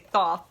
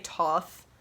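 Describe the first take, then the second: First: The name begins with a th sound. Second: The name begins with a plain t sound. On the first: This is how the speaker says it. The speaker calls it right. "I pronounce it Thoth because it's T H at the start and then T H at the end" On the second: This is how many other people say it. The speaker calls it wrong. "I've heard a lot of people say Toth"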